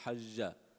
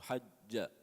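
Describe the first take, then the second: First: The middle consonant is soft and flowing. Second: The middle consonant is hard and stopped. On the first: The speaker calls it wrong. "if you to make it uh, soft, it would sound like" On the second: The speaker calls it right. "You want to make it hard"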